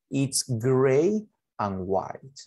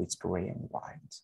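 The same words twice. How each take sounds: First: Extremely slow, stretched words; teacher modelling English very slowly; slow model sentence. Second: Much softer, lightly tossed off; teacher's quiet recap; soft quick repeat. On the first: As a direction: draw it out for beginners. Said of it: "Adjetivos de color". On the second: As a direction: mumble it again in passing. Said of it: "Es plomo y blanco". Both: Shown as a demonstration.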